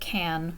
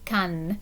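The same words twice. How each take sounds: First: The name is said with an English pronunciation. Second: The name is said with a French pronunciation. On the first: "In English, we would pronounce it Cannes" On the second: "In French, it would be Cannes"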